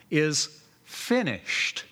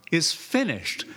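First: "Is finished" drawn out slowly, falling; slow emphatic. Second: Said in the usual way. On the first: Shown as a demonstration. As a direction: linger on "Is finished" like a final verdict. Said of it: "How does the verse end?".

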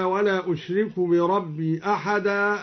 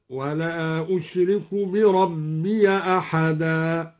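First: Said in the usual way. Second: Slow chant, بربي أحدا linked as bi-rabbiya ahada; open ya in linking. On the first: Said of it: "فتح الياء وصلا". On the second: Shown as a demonstration. Teacher demonstrating al-Duri's reading, slow tartil with fatha on بربي. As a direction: chant slowly, opening the end of بربي to -ya. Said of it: "فتح الياء وصلا هكذا".

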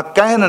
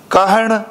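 First: ਕਹਿਣ ending in a plain dental n like ਨ; ਕਹਿਣ with the tongue on the teeth for the final n; dental n, the wrong way. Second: ਕਹਿਣ ending in a retroflex ṇ, tongue curled back; ਕਹਿਣ with a clear curled-tongue ਣ at the end. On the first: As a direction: show the mistake: ਕਹਿਣ said with ਨ instead of ਣ. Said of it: "ਨੰਨੇ ਨਾਲ ਨਹੀਂ ਪੜ੍ਹਨਾ". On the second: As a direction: say ਕਹਿਣ with the ਣ, not a plain n. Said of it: "ਨਾਣੇ ਨਾਲੇ ਗੁਰਮੁਖੋ". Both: Shown as a demonstration.

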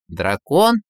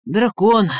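First: Astonished questioning echo, rising at the end; surprised. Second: Sudden high, loud blurt. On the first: Tsar doubts Ivan's story of the culprit, surprised. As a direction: repeat it as a puzzled question. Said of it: "удивился царь". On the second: Ivan invents a culprit for the tsar, blurting. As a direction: fire off the answer in a panic. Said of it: "выпалил Иван". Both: A narrator's reading.

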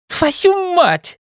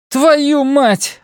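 First: Shrieked curse. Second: High shouted curse. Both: A narrator's reading. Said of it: "выкрикнула она".

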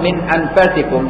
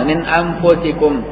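First: انفسكم read anfasikum with an open faa, slowly; انفسكم as anfasikum, the variant reading; fatha on the faa. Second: انفسكم read anfusikum with a u on the faa, slowly; انفسكم as anfusikum, the majority reading; damma on the faa. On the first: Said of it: "بفتح الفاء". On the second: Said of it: "قراءة الجمهور بالضم". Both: Shown as a demonstration.

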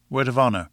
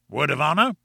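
First: "Word of honor" falling on "honor" as a firm answer; affirming. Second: "Word of honor" rising on "honor" as a question. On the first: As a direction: confirm "Word of honor" with a downward close. Narrator's character gives the pledge. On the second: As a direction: ask "Word of honor" with a lift at the end. Professor asks for a pledge. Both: Acted.

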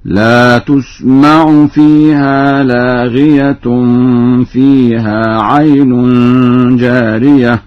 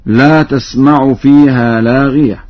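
First: تسمع as tusma'u and لاغية as laghiyatun, run on; slow chanted verse with u in تسمع and an -un ending on لاغية; damma on the ta. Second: Said in the usual way. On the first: Shown as a demonstration. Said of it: "قرأ ورش بضم التاء ورفع تاء لاغية". (تلاوة بطيئة، تسمع بضم التاء ولاغية مرفوعة) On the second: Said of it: "قرأ ورش بضم التاء".

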